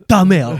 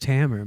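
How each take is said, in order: First: The name is said with a put-on Italian-style accent. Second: The name is said plainly in an ordinary accent. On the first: The name is being made to sound foreign. The speaker calls it wrong. "like you're trying to pronounce my name like a news reporter" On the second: This is how the name really goes. The speaker calls it right. "It's just Tamer"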